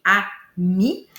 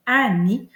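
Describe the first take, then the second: First: "ami" slowly broken as a... mi; split into syllables. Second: Said in the usual way. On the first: Shown as a demonstration. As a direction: separate "ami" into two drawn-out syllables, a and mi. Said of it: "commencer par séparer, là, mon mot en syllabes". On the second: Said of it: "commencer par séparer".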